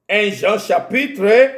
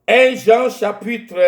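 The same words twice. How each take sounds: The two takes are said the same way.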